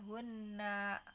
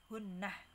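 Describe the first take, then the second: First: The word ends on an open vowel. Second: The word ends with a final h sound. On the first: The reciter continues to the next words. "Kalau wasol tanpa ha ya" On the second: The reciter stops at this word. "hunnah kalau wakof"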